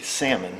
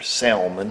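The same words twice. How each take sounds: First: The L is silent. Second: The L is pronounced.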